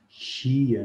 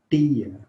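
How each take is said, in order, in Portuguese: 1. O t soa como um ch suave. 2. O t é um som simples e seco. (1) "mas a maioria fala tia" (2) "algumas pessoas falam tia"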